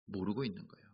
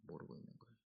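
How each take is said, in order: First: Said in the usual way. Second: Unvoiced whispered echo of 모르고 있는 거예요; whispered repeat. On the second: Real, not acted. Preacher repeats line in whisper.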